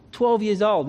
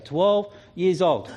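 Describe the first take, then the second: First: Put-on Twelve stressed, years old plain. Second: Put-on twelve years old said very slowly, twelve hit hard; slow stressed twelve. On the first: Preacher stressing Samuel's age, Twelve hit firmly. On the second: Preacher repeating Samuel's age, slow and stressed. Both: Shown as a demonstration. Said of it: "most commentaries say".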